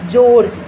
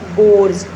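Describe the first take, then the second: First: It begins with a soft 'j' sound. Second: It begins with a hard 'g' sound. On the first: The speaker calls it right. "जय की sound भी कई बार इसमें आती है" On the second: The speaker calls it wrong. "Not"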